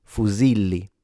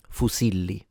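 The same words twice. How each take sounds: First: Fusilli with a voiced Z in the middle; Z sound. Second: Fusilli with an unvoiced S in the middle, southern Italian way; S sound. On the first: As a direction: buzz the Z in fusilli. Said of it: "into a Z sound". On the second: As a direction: hiss the S in Fusilli. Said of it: "pronounce it with a S sound". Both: Shown as a demonstration.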